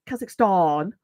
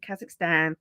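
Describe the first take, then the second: First: Kazakhstan ending in a long "-stahn". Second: Kazakhstan in a low-key nasal Brummie twang; nasal Brummie accent. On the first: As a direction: broaden the last vowel of Kazakhstan, as if an R were there. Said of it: "doesn't have an extra R in it". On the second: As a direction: say it through the nose, Birmingham style. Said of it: "typical of the Birmingham accent". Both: Retold or imitated.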